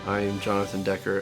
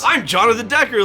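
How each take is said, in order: First: It is said in a gloomy tone. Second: It is said in a cheerful tone.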